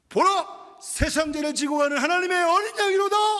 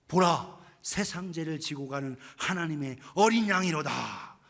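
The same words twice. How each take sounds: First: It is shouted at the loudest volume of all. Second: It is shouted at the first, lowest volume.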